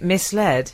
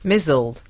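First: It is said as two parts, mis-led. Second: It is said as one word, mizzled.

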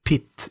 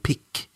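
First: The syllable ends in a t sound. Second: The syllable ends in a k sound. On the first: The speaker calls it wrong. "Inte pitt" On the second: The speaker calls it right. "utan pick"

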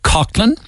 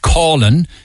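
First: The first syllable sounds like 'cock'. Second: The first syllable sounds like 'caw'. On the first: Country people say the name this way. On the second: City people say the name this way.

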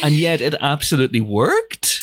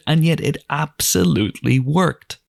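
First: The voice rises at the end. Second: The voice falls at the end. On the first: The speaker is asking. "I'll go up at the end to try a question" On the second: The speaker is stating it. "I realized it wasn't a question in my head"

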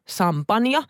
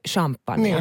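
First: The word begins with a plain s sound. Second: The word begins with an sh sound.

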